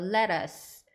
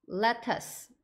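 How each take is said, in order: First: The middle T is pronounced softly. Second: The middle T is pronounced clearly.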